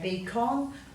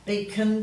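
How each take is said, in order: First: The last syllable has a full clear 'on' vowel. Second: The last syllable has a weak schwa vowel. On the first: "to make it easier to spell, you're best to say beacon" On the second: "We tend to give that a schwat sound, as in beacon"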